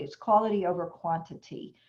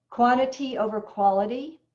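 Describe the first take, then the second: First: It's quality over quantity, settled and falling, stress on quality; lower, firm correction: quality over quantity; corrected version. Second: Quantity over quality with a rising, doubtful tune on quantity; the wrong version, quantity over quality, lifted to sound questionable; wrong way round. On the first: Trainer sets the record straight: it's quality over quantity, firmly. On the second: Trainer names the common mistake, quantity over quality, with a questioning rise. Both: Shown as a demonstration. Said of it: "it's not quantity over quality".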